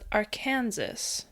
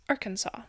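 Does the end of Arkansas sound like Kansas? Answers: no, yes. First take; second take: yes; no. First: The word ends with a Kansas-like sound. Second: The word ends without a Kansas-like sound. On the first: The speaker calls it wrong. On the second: The speaker calls it right.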